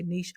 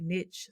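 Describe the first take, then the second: First: "niche" with a long ee and a soft sh; "niche" as neesh. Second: "niche" with a short i and a final tch; "niche" as nitch. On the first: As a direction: say "niche" to rhyme with leash. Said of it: "some people say niche". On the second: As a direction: say "niche" to rhyme with pitch. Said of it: "Some people say niche". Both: Shown as a demonstration.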